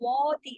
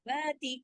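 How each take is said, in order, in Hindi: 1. 'wa' की आवाज़ मोटी और चौड़ी खुली बनाई जाती है। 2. 'wa' की आवाज़ पतली और हल्की रखी जाती है। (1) "इसको वाती ऐसे नहीं करना है" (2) "बारीक रखना है"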